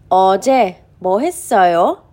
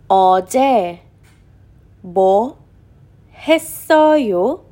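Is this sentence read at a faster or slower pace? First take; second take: faster; slower. First: It is read at a faster pace. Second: It is read at a slower pace.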